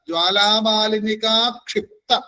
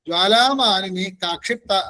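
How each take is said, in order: First: It is said as one unbroken word. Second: There is a break after malini. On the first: The speaker calls it right. "എന്നാണ്" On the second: The speaker calls it wrong. "എന്നല്ല"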